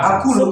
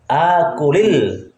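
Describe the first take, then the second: First: The word ends on a bare l consonant. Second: The word ends with an added i vowel linking on. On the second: "kalau mau disambung, kalau diwasol, dikasrokan"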